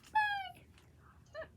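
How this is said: It is said in a high, squeaky voice.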